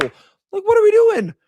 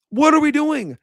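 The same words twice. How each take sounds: First: Squeaky, incredulous what are we doing; exasperated squeal. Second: Repeated in disbelief, nearer his own voice; fed-up what are we doing; exasperated question. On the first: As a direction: voice shoots way up in disbelief, louder. Exasperated outburst at coaching. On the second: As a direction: ask it again, still annoyed but settled. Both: Real, not acted.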